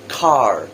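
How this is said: An American accent with a pronounced R.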